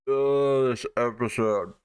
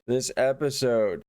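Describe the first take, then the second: First: Exasperated groan. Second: Said in the usual way. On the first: Real, not acted. Reviewer fed up with this episode, exasperated. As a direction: groan at how bad it is.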